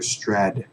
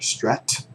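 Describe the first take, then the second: First: The T is softened into a D-like sound. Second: The T is pronounced as a clear T. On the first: "or you can hear strad" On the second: "You can hear strat"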